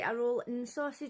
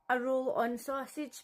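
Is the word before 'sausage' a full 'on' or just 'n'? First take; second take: just n; full on. First: The middle word is reduced to just 'n'. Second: The middle word is a full 'on'. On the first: This is how people where the speaker lives say it. The speaker calls it right. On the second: Someone else said it. The speaker calls it wrong.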